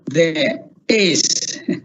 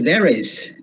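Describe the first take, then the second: First: The two words are said separately. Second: The two words are linked together. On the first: "we often hear" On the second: "in real life you say"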